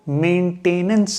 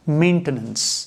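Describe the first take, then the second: First: The word is said with an extra syllable. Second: The word is said without an extra syllable. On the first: The speaker calls it wrong. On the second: The speaker calls it right.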